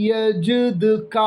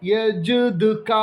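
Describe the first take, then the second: No difference in how they are said.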